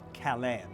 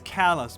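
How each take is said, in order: First: The name is said with a French pronunciation. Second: The name is said with an American pronunciation. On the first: This is how the French town's name is said. The speaker calls it wrong. "not Calais" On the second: This is the local name of the Maine town. The speaker calls it right. "the Americans who live in that town call it Calais"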